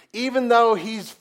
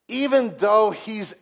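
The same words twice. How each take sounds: The two takes are said the same way.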